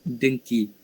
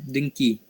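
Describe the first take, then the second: Both takes have the same delivery.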